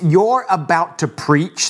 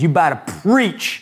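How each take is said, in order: First: The 'are' is pronounced, in a polished delivery. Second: The 'are' is dropped, in a casual delivery. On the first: A proper, formal way of saying it. "That's like the very gentlemanly way to say it" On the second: A casual, fired-up way of saying it. "but I like to say it like this"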